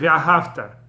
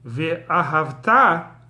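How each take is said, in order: First: The stress falls where the past reading requires. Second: The stress falls where the command reading requires. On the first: You loved. The speaker calls it wrong. "which sounds like past tense" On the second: You should love. The speaker calls it right. "you should love Hashem"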